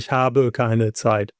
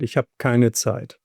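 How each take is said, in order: First: The verb is said in full, two syllables. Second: The verb is cut short to one syllable. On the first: This form is not used in casual speech. The speaker calls it wrong. "I wouldn't say ich habe keine Zeit. Too many syllables" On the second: This is everyday spoken German. The speaker calls it right. "So this is how we speak"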